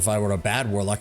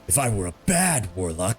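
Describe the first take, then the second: First: It is said in a natural speaking voice. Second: It is said in a gruff, growly put-on voice. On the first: The speaker calls it wrong. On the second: The speaker calls it right.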